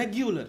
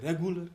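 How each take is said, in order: First: रेगुलर said as "REG-yoo-lar"; correct pronunciation. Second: रेगुलर said as "REG-goo-lar"; common mispronunciation. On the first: Coach models the u sound, correct pronunciation. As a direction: keep a clear y glide in रेगुलर, "gyoo". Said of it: "यू का sound तो हम खा ही जाते हैं". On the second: Coach quotes how we say it, u sound swallowed. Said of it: "हम उसको बोलते हैं रेगुलर". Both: Shown as a demonstration.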